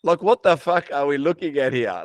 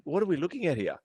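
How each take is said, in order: First: Loud, higher, scornful question; exasperated disbelief. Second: Higher, restrained puzzled question; bemused disbelief. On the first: Ranting about gym posers, loud exasperated disbelief. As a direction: blurt it out loudly, appalled. Same thought escalated in scorn. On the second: Watching gym posers post, bemused and restrained. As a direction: wonder it in disbelief, held back. Thinking about posers, first take. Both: Retold or imitated.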